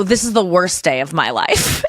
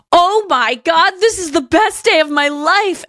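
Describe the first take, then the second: First: Slow, unexcited counter to the gushing; weary deadpan retort. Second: High, drawn-out mock squeal of delight; mock gushing. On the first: Retold or imitated. Tired dog walker to excited girl, weary deadpan. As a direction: answer delight with tired deadpan. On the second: Girl seeing three dogs in the elevator, mock-gushing. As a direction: imitate an over-thrilled dog lover.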